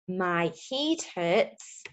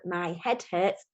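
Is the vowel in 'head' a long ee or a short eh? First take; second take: long ee; short eh. First: Head is said with a long ee vowel. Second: Head is said with a short eh vowel. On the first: The speaker calls it wrong. "that doesn't sound right, does it?" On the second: The speaker calls it right. "the other sound it can make, the S sound"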